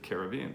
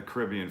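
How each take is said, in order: First: Caribbean said ca-rib-BEE-an; Caribbean as "care-ih-BEE-un"; stress on third syllable. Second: Caribbean said ca-RIB-ee-an; Caribbean as "kuh-RIB-ee-un"; stress on second syllable. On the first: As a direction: say Caribbean with the weight on BE. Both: Shown as a demonstration. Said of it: "Or is it Caribbean food".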